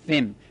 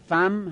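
First: The first consonant is followed by an i vowel. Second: The first consonant is followed by an a vowel. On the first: "به کس" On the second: "به فت"

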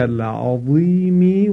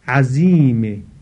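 First: The middle consonant is a heavy emphatic sound. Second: The middle consonant is a plain z sound. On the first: It means great. The speaker calls it right. "به معنای بزرگ هست" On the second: It means a stubborn enemy. The speaker calls it wrong. "باز به شکل زا تلفظ بکنه، یعنی ساده تلفظ بکنه"

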